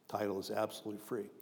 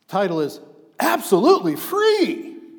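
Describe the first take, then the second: First: It is said flatly, without excitement. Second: It is said with exclamatory excitement.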